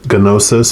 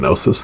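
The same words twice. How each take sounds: First: The first G is sounded. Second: The first G is silent. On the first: The speaker calls it wrong. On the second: The speaker calls it right.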